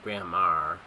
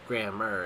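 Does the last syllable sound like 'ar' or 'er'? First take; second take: ar; er. First: The last syllable has a full 'ar' sound. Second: The last syllable has a weak 'er' sound. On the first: "the whole A R thing would have made a whole lot more sense" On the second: "I pronounced it grammar"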